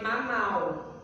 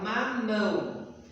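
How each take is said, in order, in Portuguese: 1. A palavra termina em vogal oral. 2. A palavra termina em vogal nasal. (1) "se eu não colocar o tio... a gente lê mamau" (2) "para dar esse som de ão"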